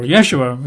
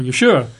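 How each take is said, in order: First: Yeshua said YESH-oo-ah; one variant of the name. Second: Yeshua said yuh-SHOO-ah; other variant of the name. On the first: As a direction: Yeshua with the weight up front. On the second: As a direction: Yeshua with a reduced first syllable, weight on SHOO. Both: Shown as a demonstration. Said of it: "or Yeshua".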